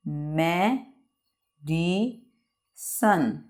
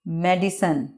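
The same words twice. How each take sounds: First: medicine with long gaps, me, di, sun; very slow, softer three-part medicine; long pause after each syllable of medicine; broken into syllables. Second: Said in the usual way. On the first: Shown as a demonstration. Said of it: "word को रुक रुक के बयान करना". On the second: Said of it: "इसको pronunciate कर लेते हैं".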